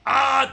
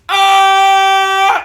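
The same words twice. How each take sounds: First: A scream pushed from the throat, sounding strained. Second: A scream driven from the diaphragm, louder and fuller. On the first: The speaker calls it wrong. "that's throat" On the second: The speaker calls it right. "Diaphragm, that's"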